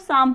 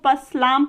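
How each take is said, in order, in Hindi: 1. यह sh की आवाज़ से शुरू होता है, P नहीं। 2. यह P से शुरू होता है और इसमें L है। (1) "पी और एल साइलेंट है तो इसको शाम पढ़ा जाता है" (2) "जब हमें इन सारी चीजों की जानकारी नहीं होती ... इसको पसलाम पढ़ सकते हैं"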